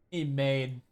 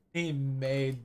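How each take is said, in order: Both takes have the same delivery.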